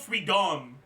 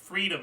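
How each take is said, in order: First: The stress falls on an unusual syllable. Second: The stress falls on the normal syllable. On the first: The speaker calls it wrong. "it puts the accent on the wrong syllable. Like it's not" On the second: The speaker calls it right. "It's it's"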